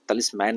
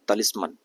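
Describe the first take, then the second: First: The last syllable has a full 'man' vowel. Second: The last syllable has a short, reduced vowel. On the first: The speaker calls it wrong. "तलिस्मैन नहीं होगा" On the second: The speaker calls it right. "इसका pronunciation होगा तलिस्मन"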